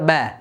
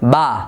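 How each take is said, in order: First: The vowel is fronted toward an 'e' sound. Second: The vowel is very open, full and heavy. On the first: "বার বারিক উচ্চারণ করতে গিয়ে বা জবর বা এটা না বলে বলে যে" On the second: "জবরটা তখন পুর হয়ে যায়... এমনটা বললে গলত হবে"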